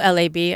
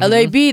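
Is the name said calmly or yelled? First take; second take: calmly; yelled. First: The letters are said quietly and calmly. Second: The letters are shouted loudly and energetically. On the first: Nobody greets the speaker in a subdued way. "There's no like calm like" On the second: People greet the speaker with excitement. "That's how people always just yell it at me"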